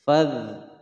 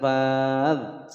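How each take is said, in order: First: The vowel after f is short. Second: The vowel after f is long. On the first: The speaker calls it right. "fa-nya tidak dibaca panjang lagi" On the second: The speaker calls it wrong. "jangan fadh, salah"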